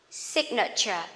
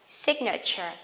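The two takes are said the same way.

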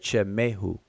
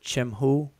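First: An e vowel is heard between the middle consonants. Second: No vowel is heard between the middle consonants. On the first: "the pronunciation with that E in between the consonants is purely conventional" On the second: "Some people pronounce it Chimhu"

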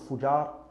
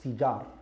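First: The first vowel is a u sound. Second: The first vowel is an i sound. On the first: The speaker calls it wrong. "not Fujar" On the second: The speaker calls it right. "it's Fijar"

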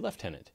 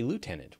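First: The first syllable is lef, with an f sound. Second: The first syllable is loo, with no f sound. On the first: "We say lieutenant. ... It's a British thing" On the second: "You say lieutenant"

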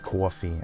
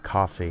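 First: It is said with a New York accent. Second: It is said with a Midwestern accent. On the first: "we say things like coffee" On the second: "and not coffee"

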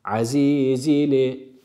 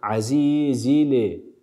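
The two takes are said the same way.

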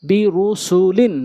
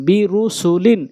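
No difference in how they are said.

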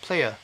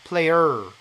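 First: The final r is left out entirely. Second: The final r is strong and curled. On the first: The speaker calls it right. "아예 안 붙이셔도 됩니다" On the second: The speaker calls it wrong. "이걸 얼로 해버리면은"

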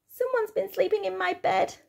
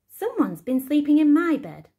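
First: It is said in a squeaky little voice. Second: It is said in a middle-sized voice.

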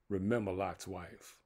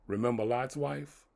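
First: It is said as a statement, falling. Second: It is said as a question, rising.

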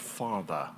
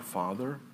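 First: It is said in a British accent. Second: It is said in the speaker's usual American accent.

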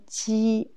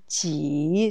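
First: The syllable is said with a high level tone. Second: The syllable is said with a low dipping tone. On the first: It is part of the word for a small table. "c'est premier ton" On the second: It asks how many. "c'est troisième ton ici"

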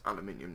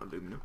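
First: The word is said the British way. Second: The word is said the American way. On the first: The speaker calls it right. "It's aluminium" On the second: The speaker calls it wrong. "not aluminum. Am I on US sayings?"

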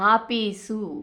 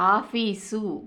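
First: The middle consonant is a plain p sound. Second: The middle consonant is an aspirated f-like sound. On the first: This is the non-standard dialect form. "ఫా అనేటటువంటి పాగా మారటం" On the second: This is the standard form of the word. "ఫా అనేటటువంటి పాగా మారటం"

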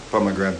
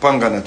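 First: The word begins with 'pom' and is full. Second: The word begins with 'pang' and is shortened. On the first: This is the standard way of saying it. The speaker calls it right. "the right name. Pomegranate" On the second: This is the local way of saying it. The speaker calls it wrong. "we call it panganate a little bit"

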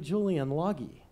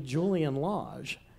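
First: The surname is said to sound like 'Loggy'. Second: The surname is said in its usual way. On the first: The voice assistant recognizes the name. "until I said, Alexa, play [name]" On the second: The voice assistant does not recognize the name. "it wouldn't play [name]"

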